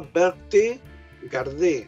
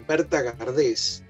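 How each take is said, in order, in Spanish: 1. El nombre se dice con pronunciación francesa. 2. El nombre se dice con pronunciación española.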